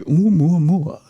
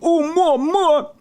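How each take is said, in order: First: The name is said flatly and plainly. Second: The name is drawn out in a dramatic, exaggerated way. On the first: "you can't say it straight, can you? If you just say" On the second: "I can't help it. I have to say it that way"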